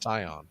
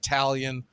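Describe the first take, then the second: First: The first syllable sounds like 'tie'. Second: The first syllable sounds like 'tal'. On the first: The speaker calls it right. "It's it's Tyon" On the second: The speaker calls it wrong. "Not not Talion"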